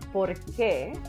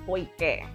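First: The R is clearly pronounced before qué. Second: The R is replaced by an I sound. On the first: "instead of saying por qué" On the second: "a cibaño will say poique"

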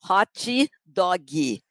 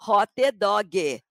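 First: It is said with a Carioca Brazilian accent. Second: It is said with a Paranaense Brazilian accent.

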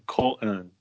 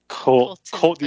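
First: The T in the middle is left out. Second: The T in the middle is clearly pronounced.

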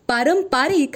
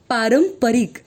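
First: The third syllable has a long vowel. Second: The third syllable has a short vowel. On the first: The speaker calls it wrong. "पारंपरिक हा चुकीचा प्रयोग आहे" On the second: The speaker calls it right. "तसे परंपरावरून पारंपरिक"

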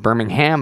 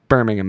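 First: The name is pronounced the way it is in Alabama. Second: The name is pronounced the way it is in England. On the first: It refers to the city in Alabama. "Birmingham, Alabama" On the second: It refers to the city in England. "Birmingham, England"

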